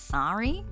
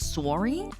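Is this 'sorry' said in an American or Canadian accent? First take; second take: American; Canadian. First: The O is open and unrounded. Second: The O is rounded with a W-like glide. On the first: "the American so- sorry is kind of like an open O" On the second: "the Canadian accent means that there's a W in this"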